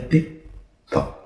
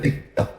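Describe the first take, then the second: First: The ticking is said at a slower pace. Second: The ticking is said at a quicker pace. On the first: Time appears slowed to the observer outside the craft. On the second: Time passes normally for the observer inside the craft.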